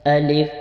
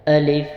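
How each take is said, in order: No difference in how they are said.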